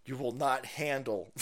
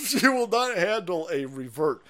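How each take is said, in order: First: Said in the usual way. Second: Higher, louder, through a laugh. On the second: Real, not acted. Host taunts the other side, laughing. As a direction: break up laughing mid-warning. Laughs while repeating his warning.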